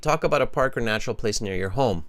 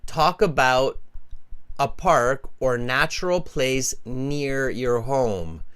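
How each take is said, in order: First: The sentence is spoken very quickly. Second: The sentence is spoken slowly and carefully. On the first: "Some of them are going to say it very quickly" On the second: "They're not going to say it like that"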